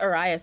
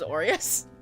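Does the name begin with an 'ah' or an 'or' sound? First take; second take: ah; or. First: The name begins with an open 'ah' sound. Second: The name begins with a rounded 'or' sound. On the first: The speaker calls it wrong. "I've been pronouncing it Arias myself" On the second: The speaker calls it right. "didn't they say it was Orias?"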